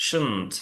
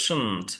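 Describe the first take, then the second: No difference in how they are said.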